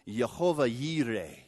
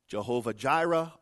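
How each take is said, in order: First: The second word begins with a Y sound. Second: The second word begins with a J sound. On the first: This is the Hebrew form of the name. The speaker calls it right. "it actually says Jehovah Yireh, Y-I-R-E-H" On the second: This is the Greek-derived form of the name. The speaker calls it wrong. "the Greek pronunciation ... It's an absolute butcher of the Hebrew"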